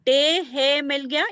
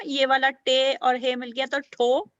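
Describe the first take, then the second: First: Slow, careful letter-by-letter demo; slow sounding out. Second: Said in the usual way. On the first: Shown as a demonstration. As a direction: sound out each letter, slowly.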